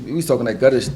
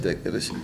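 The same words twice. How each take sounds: First: Said in the usual way. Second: Whispered echo. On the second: Real, not acted. Repeats phrase, drops to whisper.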